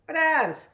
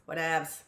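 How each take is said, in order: First: "Whatevs" tossed off high and loud with sass; sassy whatevs. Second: Said in the usual way. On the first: Pretend. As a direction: fling out "Whatevs" like a dismissive teen. Repeats whatevs with emphasis.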